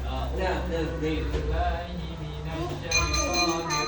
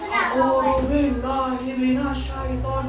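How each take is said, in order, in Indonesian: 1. Dibaca dengan tenang dan sopan. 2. Dibaca sambil berteriak keras. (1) "membaca dengan sopan" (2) "membacanya sambil teriak-teriak sambil sambil gembar-gembor"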